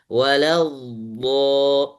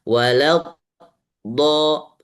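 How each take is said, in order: First: The sound is drawn out into the 'do'. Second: The sound breaks off before the 'do'. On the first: The speaker calls it right. "suara yang ditarik itu adalah namanya istitolah" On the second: The speaker calls it wrong. "salah. Kenapa? Karena putus"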